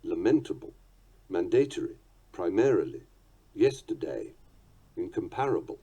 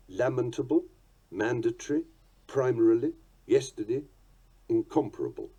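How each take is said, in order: First: "lamentable", "mandatory", "primarily" stressed on the second syllable; "incomparable" as in-com-PAR-able, "mandatory" as man-DAY-tory; later stress. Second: "Lamentable", "mandatory", "primarily" stressed on the first syllable; "incomparable" as in-COM-parable, "mandatory" as MAN-datory; early accents, "Lamentable" as LAM-entable. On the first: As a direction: late accents, "lamentable" as la-MENT-able. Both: Shown as a demonstration. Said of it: "those in the first version or the second".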